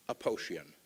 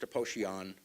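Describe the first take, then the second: First: Said in the usual way. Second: Aposhian with an open "ahn" ending; correct Armenian pronunciation. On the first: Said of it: "I don't even say it like that". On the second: Shown as a demonstration. Speaker shows listeners his Armenian surname, Aposhian pronounced correctly with "-ahn". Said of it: "It's correctly pronounced Aposhian".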